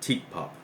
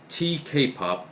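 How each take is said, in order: First: The first part is said as one word. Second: The first part is spelled out letter by letter. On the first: "or Teak pop" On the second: "either pronounced as T K pop"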